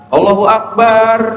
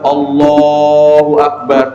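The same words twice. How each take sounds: First: The vowel in akbar is drawn out long. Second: The vowel in Allah is drawn out long. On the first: Allah is a drum. The speaker calls it wrong. "memanjangkan kalimat akbarnya" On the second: Allah is the Greatest. The speaker calls it right. "yang harus dia panjangkan adalah kalimat Allahnya"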